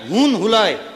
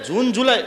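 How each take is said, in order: First: Both words begin with an H sound. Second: Both words begin with a J sound. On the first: The speaker calls it wrong. "જ ને હ pronounce કરવાનો" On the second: The speaker calls it right. "જૂન જુલાઈ નહીં"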